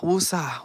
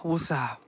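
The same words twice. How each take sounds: First: Whispering. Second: Quiet voiced woosah; soft calming breath. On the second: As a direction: breathe it out softly. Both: Shown as a demonstration. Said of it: "whoo, child".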